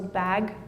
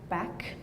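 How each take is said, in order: First: The final consonant is voiced, a g sound. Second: The final consonant is voiceless, a k sound. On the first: "meaning g becomes k" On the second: "meaning g becomes k"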